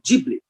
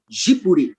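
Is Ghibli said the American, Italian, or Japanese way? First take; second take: American; Japanese. First: It is said in the American English way. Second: It is said Japanese style, without an l sound. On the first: "eles falam Ghibli" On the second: "como eles não têm o hábito de pronunciar a letra L, eles falam Ghibli"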